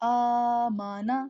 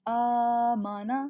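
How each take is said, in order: Both takes have the same delivery.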